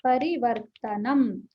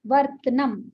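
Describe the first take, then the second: First: परिवर्तनम said slowly with full अ in वर्त; correct pronunciation. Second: वर्तनम said as वर्त्नम, the अ after त swallowed; wrong pronunciation. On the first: Shown as a demonstration. Teacher showing the right way to say परिवर्तनम. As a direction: pronounce परिवर्तनम slowly, every vowel sounded. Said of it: "देखिए इसको". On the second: Retold or imitated. Teacher showing the common wrong way to say वर्तनम. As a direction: clip वर्तनम so त joins न. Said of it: "ये गलत है".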